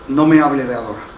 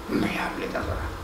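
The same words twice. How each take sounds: First: "no me hable de adorar" said firmly, stress on "me", falling end; stressed declaration. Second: "No me hable de adorar" whispered, voice dropped away; whispered repeat. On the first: Pastor warning the congregation, firm stress on "me". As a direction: press down on "me" and let "adorar" fall. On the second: Pastor driving his point home in a whisper. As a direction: breathe the line out as a whisper. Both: Shown as a demonstration.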